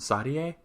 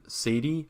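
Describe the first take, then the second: First: The name is said with a Japanese pronunciation. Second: The name is said with an American pronunciation. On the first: "Is the Japanese version Sadie?" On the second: "I think I'm pronouncing that the American version"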